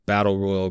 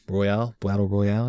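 First: Said in the usual way. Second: "Royale" ending like "pal", as a question; unsure pronunciation. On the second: Real, not acted. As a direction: try out "Royale" with stress on the last syllable, questioning. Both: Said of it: "Is that how you say it?".

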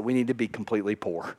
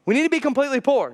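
First: Dropped low and soft, hurried; low quiet first take. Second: A touch higher and fast, punched; emphatic repeat. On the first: Pastor murmurs the hard truth to congregation, low and soft. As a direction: say it under your breath, fast. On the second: Pastor hammers the point home to congregation, emphatic. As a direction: repeat it with force. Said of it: "Jesus says that we need to be completely poor". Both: Shown as a demonstration.

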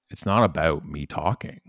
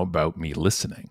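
First: "not" leaned on with a lift; stress on not. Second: "about" pressed with a rise; stress on about. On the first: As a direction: press the word "not" to set up the contrast. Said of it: "and it's about, about me listening". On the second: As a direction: hit "about" to answer the "not". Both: Shown as a demonstration.

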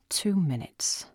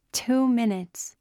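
First: Said in the usual way. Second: Higher, slow and delighted; excited announcement. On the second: A narrator's reading. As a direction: savour the moment it starts. Fountain show begins.

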